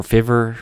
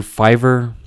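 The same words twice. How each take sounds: First: Fiverr said like "FIVV-er"; Fiverr with short i. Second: Fiverr said like "FIVE-er"; Fiverr with long i. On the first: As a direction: say Fiverr with the vowel of "give". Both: Shown as a demonstration. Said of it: "I don't know how you say that".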